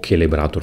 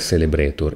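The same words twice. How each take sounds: First: The word starts with a hard C sound. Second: The word starts with a soft C sound. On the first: This is a possible German reading. "forse con la C dura" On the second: This is the English-style reading. "all'inglese è Celebrator"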